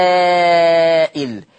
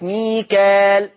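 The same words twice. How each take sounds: First: وميكائيل slow, with a kasra hamza "Mika-il" after the long a; Warsh reading Mikail. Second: ميكال slow "Mikaal", plain long a, no hamza; Hafs reading Mikal. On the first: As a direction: stretch the a in وميكائيل long, then a clear glottal stop into i. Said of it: "ورش بهمزة مكسورة بعد الألف". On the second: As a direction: draw out ميكال with a natural long a and no glottal stop. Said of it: "بالألف المادية، من غير همزة بعدها". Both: Shown as a demonstration.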